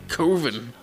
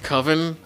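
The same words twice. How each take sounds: First: The first vowel is 'oh', not rhyming with oven. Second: The first vowel is 'uh', rhyming with oven. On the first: It sounds scary enough for a horror film. The speaker calls it right. "It's Coven" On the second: It sounds too ordinary to be scary. The speaker calls it wrong. "That sounds like oven"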